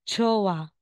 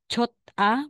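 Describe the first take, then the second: First: No t sound is heard before the final vowel. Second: A t sound is heard before the final vowel. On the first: The speaker calls it right. "magiging chowa" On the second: The speaker calls it wrong. "aside na sasabihin mong chot-a"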